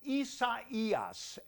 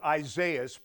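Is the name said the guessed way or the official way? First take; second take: official; guessed. First: The name is said the officially given way. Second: The name is said the speaker's guessed way. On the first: The speaker calls it right. "The Hurricane Center says it is pronounced Isaias" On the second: The speaker calls it wrong. "I thought it would be Isaias, but I could not be any more wrong"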